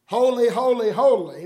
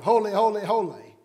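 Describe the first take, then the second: First: Each "Holy" hit loud and falling; emphatic holy repeated. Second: Said in the usual way. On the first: Shown as a demonstration. Preacher showing Hebrew emphasis, loud and weighty. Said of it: "to emphasize a word, they'd repeat it". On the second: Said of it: "why the Bible had all those".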